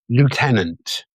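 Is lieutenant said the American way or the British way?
American. It is said the American way, with no f sound. The speaker calls it right. "I'm going to say it the American way"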